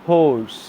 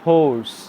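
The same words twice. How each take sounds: No difference in how they are said.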